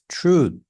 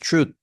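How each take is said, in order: First: The final sound is weak and unclear. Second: The final sound is strong and clearly pronounced. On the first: The speaker calls it wrong. "It's like you're saying uh like this truth" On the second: The speaker calls it right. "but it's truth. Like it's more pronounced at the end"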